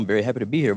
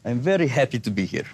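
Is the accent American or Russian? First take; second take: American; Russian. First: It is spoken with an American accent. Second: It is spoken with a Russian accent. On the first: "But the American accent" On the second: "But the Russian accent"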